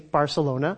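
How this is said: The c is said like an s. This is how it is said in North America. "in the Spanish that we are probably more used to here in North America, we say Barcelona"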